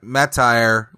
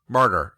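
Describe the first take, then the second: First: The word ends with a 'tire' sound. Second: The word ends with a 'ter' sound. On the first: The speaker calls it wrong. "I thought martyr was pronounced like Matire" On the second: The speaker calls it right. "like a martyr"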